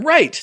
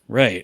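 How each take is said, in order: First: It is said with excitement. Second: It is said flatly and deflated.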